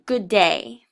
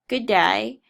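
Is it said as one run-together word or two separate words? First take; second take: two words; one word. First: It is said as two separate words. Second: It is run together into one word.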